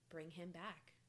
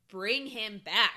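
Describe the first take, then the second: First: It is said calmly and quietly. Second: It is said as a loud scream.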